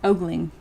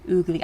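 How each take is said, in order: First: The first vowel sounds like 'oh'. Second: The first vowel sounds like 'ooh'. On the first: "pronounced ogling, like ogre" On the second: "I would say ooh"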